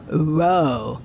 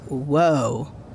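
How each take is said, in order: First: It is said in a surfer-bro voice. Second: It is said in a plain voice.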